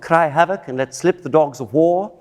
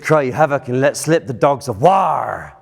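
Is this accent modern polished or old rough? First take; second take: modern polished; old rough. First: Said in a light, polished, jolly modern accent. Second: Said in a rougher, guttural, older English accent. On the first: The speaker calls it wrong. "It's not ... It'll be jolly" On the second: The speaker calls it right. "But it's"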